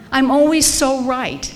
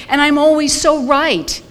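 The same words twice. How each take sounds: First: "I'm always so right" with "always" leaned on; stress on always. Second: Slow, leaning hard on "so" with a falling end; "And I'm always so right" with "so" stretched and punched; stress on so. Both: Shown as a demonstration. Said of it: "God, that'll kill you".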